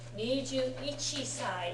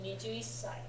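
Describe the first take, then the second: First: Ichi is said in full before sai. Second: Ichi shortens into a held s sound. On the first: The speaker calls it wrong. "a little bit awkward to say" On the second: The speaker calls it right. "naturally morphs into"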